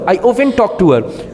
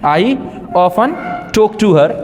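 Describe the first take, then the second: First: It is spoken quickly. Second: It is spoken slowly. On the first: "बहुत speed में बोल रहा हूँ" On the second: "स्लो बोल के दिखाता हूँ"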